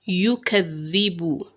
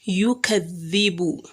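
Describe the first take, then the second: The two takes are said the same way.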